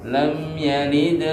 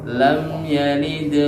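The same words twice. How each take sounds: The two takes are said the same way.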